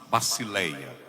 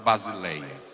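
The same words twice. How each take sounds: First: The middle consonant is a hissing s sound. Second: The middle consonant is a buzzing z sound. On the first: The speaker calls it right. "o sigma ... sempre soa como basi" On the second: The speaker calls it wrong. "não é basileia"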